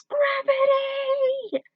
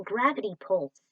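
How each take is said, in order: First: Screamed word. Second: Said in the usual way. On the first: Acted.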